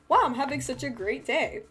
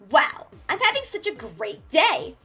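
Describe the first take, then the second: First: It is said in a plain, relaxed everyday voice. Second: It is said in a confident, put-on character voice. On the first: The speaker is talking as herself. "I could say the same sentence" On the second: A different character is speaking. "It's like so Blackbird"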